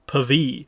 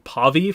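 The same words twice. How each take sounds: First: The A vowel is light and not emphasized. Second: The A vowel is full and emphasized. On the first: The speaker calls it right. "The A doesn't seem to be emphasized that much in the pronunciation" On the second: The speaker calls it wrong. "I think we've all been saying Pavi for a while"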